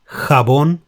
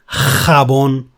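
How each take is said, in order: First: The first consonant is moderate and softer. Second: The first consonant is strongly exaggerated and harsh. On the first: The speaker calls it right. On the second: The speaker calls it wrong. "do not try to stress it too much"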